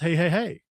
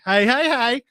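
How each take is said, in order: First: It is said in a plain reading voice. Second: It is said imitating Rerun's character voice.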